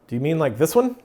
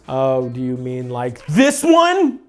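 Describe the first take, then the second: First: It is said in a casual, rather bland way. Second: It is said in an intense, overdone way.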